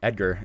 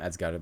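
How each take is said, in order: First: The name is said with English pronunciation. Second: The name is said with Spanish pronunciation. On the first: "or Edgar in, in English, I guess" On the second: "we said it like that because that's just how you say it in Spanish"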